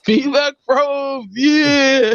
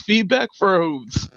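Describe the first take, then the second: First: Slow, high, proclaiming shout; mock shout. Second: Drawn-out, deliberate announcement; slow dramatic. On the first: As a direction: announce it like a grand title. Jokingly proclaims the name. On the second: Acted. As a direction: savour each word like a title. Repeats name drawn out.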